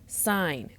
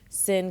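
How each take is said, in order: First: The word has a long vowel, like 'pine'. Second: The word has a short vowel, like 'pin'. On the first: The full word is said for the abbreviation. "I said sine" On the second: The abbreviation is read out as written. "instead of saying sin"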